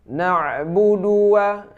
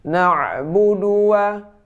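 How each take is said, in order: Both takes have the same delivery.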